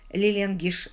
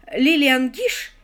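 First: Said in the usual way. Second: «Лилиан Гиш» громче, выше и медленно, по слогам; протянуть «Лилиан Гиш» с нажимом; выделено имя. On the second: Acted. Актриса приводит пример. (Сью с нажимом растягивает «Лилиан Гиш»)

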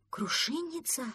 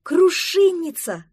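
First: Higher, wondering repeat of «Крушинница»; a small duckling repeats a strange word, puzzled; puzzled question. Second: High, loud, slow «Крушинница!» of delight; excited exclamation. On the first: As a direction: echo «Крушинница» back as a baffled question. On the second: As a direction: cry «Крушинница!» out with joy on spotting it. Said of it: "воскликнула Октава". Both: Acted.

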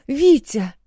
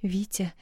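First: High, loud frightened shout; alarmed shout of Витя; panicked cry. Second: Softer, pleading Витя; hushed worried plea. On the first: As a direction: scream his name in panic. Wife panics over fallen husband. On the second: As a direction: beg him quietly not to scare her. Frightened wife pleads softly. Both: A narrator's reading.

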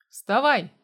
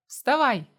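First: Sharp loud bark; barked order. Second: Loud yell, a touch rough; yelled order. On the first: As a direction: bark him awake. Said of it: "рявкнул я". (резкий громкий окрик) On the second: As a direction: yell it as you rush off. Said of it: "проорал я". (громкий крик на бегу) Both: A narrator's reading.

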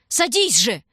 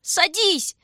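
First: Louder, pressing order; urgent command. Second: Very high, loud, scared cry; thin frightened scream. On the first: Shurka ordering his sister onto the sled, urgent command. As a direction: make her get on now. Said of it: "торопил он её". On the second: Shurka panicking as his sister hesitates, thin frightened scream. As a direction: shriek it in panic. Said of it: "закричал он тонко и испуганно". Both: A narrator's reading.

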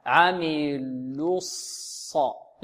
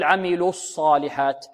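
First: عملوا الص very slowly, lips rounded on the lam and then released before the sad; very slow, soft, careful recitation; correct rounding. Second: عملوا الصالحات with the lip rounding carried over from عملوا onto the sad; wrong rounding. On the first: Teacher shows students the correct lip movement. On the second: Teacher shows students the common lip mistake. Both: Shown as a demonstration. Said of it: "لا نقول".

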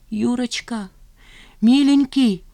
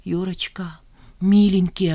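First: High-pitched, rising tender plea; imploring. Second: Tearful. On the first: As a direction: call to him beseechingly, high. Woman pleading with her lover. (умоляюще, высоким голосом) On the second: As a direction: plead as tears begin. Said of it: "она заплакала". (сквозь слёзы, негромко) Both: A narrator's reading.

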